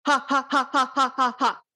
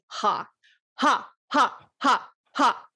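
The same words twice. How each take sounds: First: Faster vibrato haws. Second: Slow throaty ha pulses from the belly; vibrato haws. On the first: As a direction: rattle the ha pulses off faster from the belly. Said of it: "And then you can speed it up". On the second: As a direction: push out each ha from the gut, evenly. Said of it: "It's like you're saying". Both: Shown as a demonstration.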